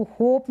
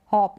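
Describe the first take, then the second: First: होप said like "hope"; होप with a rounded vowel; long o. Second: हॉप said "hawp"; हॉप with a short open vowel. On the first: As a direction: say होप with a closed "oh". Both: Shown as a demonstration. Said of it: "इसको होप नहीं पढ़ेंगे".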